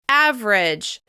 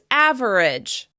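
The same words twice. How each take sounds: First: The word is said with two syllables. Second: The word is said with three syllables. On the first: "we're going to practice it with just two syllables" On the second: "Some people will say this word as average"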